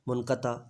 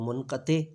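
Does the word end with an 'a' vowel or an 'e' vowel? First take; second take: a; e. First: The word ends with an 'a' vowel. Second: The word ends with an 'e' vowel. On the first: This is the form prose writers mostly use. "नसर निगार या मंसूर इसको ज़्यादातर मुनक़ता बोलते हैं" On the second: This is the form poets mostly use. "शायर ज़्यादातर इसको मुनक़ते"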